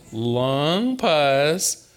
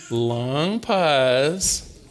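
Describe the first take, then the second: No difference in how they are said.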